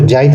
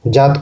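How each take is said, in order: First: जाइत with an i-glide before the t; Nagpuri pronunciation. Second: Said in the usual way. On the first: Shown as a demonstration. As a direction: say जाइत as "jaa-it". (जाइत का नागपुरी उच्चारण, त से पहले इ) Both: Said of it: "बल देते हैं".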